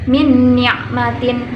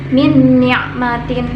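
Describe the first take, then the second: The two takes are said the same way.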